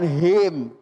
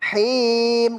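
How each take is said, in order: First: The h is soft and light, not pressed. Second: The h is pressed hard from the throat. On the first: The speaker calls it wrong. "Jangan him, jangan pakai h" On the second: The speaker calls it right. "Him gitu. ... beda pemirsa ketika kita tekan"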